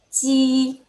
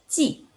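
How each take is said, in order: First: It is said with the first tone. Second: It is said with the fourth tone. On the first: "nada satu" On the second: "Nada empat"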